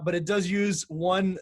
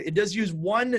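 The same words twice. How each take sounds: First: Slowing down with does leaned on; slow stress on does. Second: Said in the usual way. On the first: Shown as a demonstration. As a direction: draw it out and press the word does.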